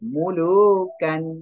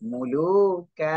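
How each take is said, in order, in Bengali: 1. শব্দটি ন ধ্বনি দিয়ে শেষ হয়। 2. শব্দটি দীর্ঘ স্বর দিয়ে শেষ হয়।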